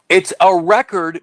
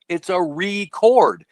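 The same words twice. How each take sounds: First: The stress is on the first syllable. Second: The stress is on the second syllable. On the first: It is a stored document. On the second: It is an act of recording. "let me pronounce it a different way"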